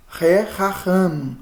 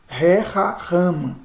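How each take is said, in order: Both takes have the same delivery.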